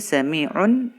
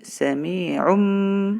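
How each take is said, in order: First: The word ends with an n sound. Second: The word ends with an m sound.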